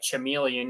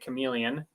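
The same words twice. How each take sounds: First: The word begins with a ch sound. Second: The word begins with a k sound. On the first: The speaker calls it wrong. "you don't say uh" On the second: The speaker calls it right. "You say"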